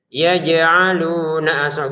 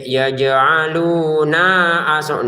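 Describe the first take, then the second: First: The vowel after the n is short. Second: The vowel after the n is lengthened. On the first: The speaker calls it right. "nu nanya pendek" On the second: The speaker calls it wrong. "Jangan ya yaj'aluna aso, nanya dipanjangkan"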